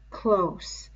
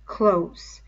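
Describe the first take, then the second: First: "close" breathed as an eerie whisper. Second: Said in the usual way. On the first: Acted. The beast drawing Simon in, whispering "close". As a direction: whisper "close" right into his ear. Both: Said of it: "close. (whisper)".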